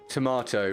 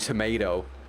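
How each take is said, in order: First: It is pronounced with the British vowel. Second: It is pronounced with the American vowel. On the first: "Is it tomato or tomato in British English? Oh, it's tomato" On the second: "rather than"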